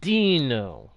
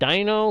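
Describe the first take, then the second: First: The first syllable sounds unlike in 'dinosaur'. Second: The first syllable sounds like in 'dinosaur'.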